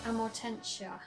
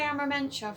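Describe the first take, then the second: First: The middle of the word sounds like 'morten'. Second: The middle of the word sounds like 'marmen'. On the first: The speaker calls it right. "the correct pronunciation and the answer is Amortentia" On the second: The speaker calls it wrong. "I usually say Amarmentia for some reason"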